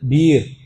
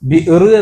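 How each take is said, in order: First: No glottal stop; the vowel is long. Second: A glottal stop follows the short vowel.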